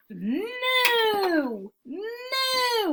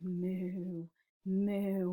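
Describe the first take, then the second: First: Long, high swooping moo; loud cow moo. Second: Soft, level, hushed moo; quiet cow moo. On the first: Teacher reads the noisy cow to children, high long mooing. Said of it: "went the cow". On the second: Cow after the farmer's scolding, quiet mooing. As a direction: moo gently so nobody wakes. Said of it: "they quietly made their noises". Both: Acted.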